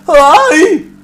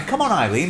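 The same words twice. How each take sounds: First: High, very loud garbled yell of the hook; imitated yelping shout; mangled singer impression. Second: Said in the usual way. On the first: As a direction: blurt it out like a singer swallowing the consonants. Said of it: "but he used to go". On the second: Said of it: "he was supposed to be saying".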